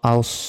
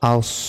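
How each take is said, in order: Both takes have the same delivery.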